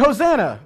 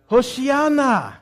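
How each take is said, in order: First: "Hosanna" as hoh-ZAN-nah, the familiar English form. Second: "Hoshiana" as hoh-shee-AH-nah, Hebrew sounds. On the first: Preacher contrasting the English form with the Hebrew, plainly. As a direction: say "Hosanna" the usual churchgoer way. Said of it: "no, they shouted". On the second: Preacher teaching the congregation the Hebrew word, slow and careful. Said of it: "the Hebrew is Hoshiana". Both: Shown as a demonstration.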